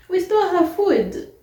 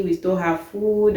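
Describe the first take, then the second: First: High and loud, stole stretched in disbelief; incredulous outburst. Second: Said in the usual way. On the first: Retold or imitated. Repeating the roommate's absurd accusation, incredulous and loud. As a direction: throw it back like you can't believe it.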